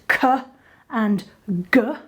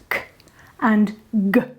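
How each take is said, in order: First: A vowel sound follows each consonant. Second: Each consonant is isolated with no vowel. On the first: The speaker calls it wrong. "remember not to add a vowel onto that to make it" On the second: The speaker calls it right. "So remember, it's"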